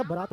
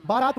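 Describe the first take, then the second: First: बारात with short "ba" at the start; correct short first vowel. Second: बारात with long "baa" at the start; higher, louder "baa-raat" for बारात; wrong long first vowel. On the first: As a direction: open बारात as "buh-raat". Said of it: "बारात word होता है". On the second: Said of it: "बारात word नहीं होता". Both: Shown as a demonstration.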